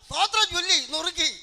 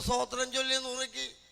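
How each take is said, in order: First: It is said in a harsh, frightening way. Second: It is said in a gentle, pleasant way. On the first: It would scare the listeners. The speaker calls it wrong. "ആൾക്കാർ പേടിച്ച് പോകും" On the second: It is the proper way to recite it. The speaker calls it right. "പറയുമ്പോൾ നല്ലതായിട്ട് പറയും"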